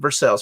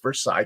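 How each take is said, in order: First: It is said the local Kentucky way. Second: It is said the way outsiders say it. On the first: The speaker is from Kentucky. "You know you're from Kentucky when you pronounce it Versailles" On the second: The speaker is not from Kentucky. "For everyone else outside of Kentucky"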